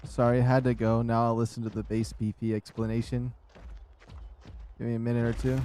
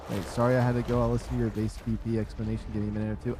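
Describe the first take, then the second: First: Winded, catching breath. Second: Said in the usual way. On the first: Real, not acted. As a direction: speak short of breath. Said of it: "I was out of breath while I was saying it".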